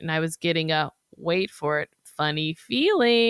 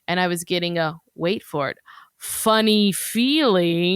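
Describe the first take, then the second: First: It is read in a plain, ordinary way. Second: It is read with over-the-top drama.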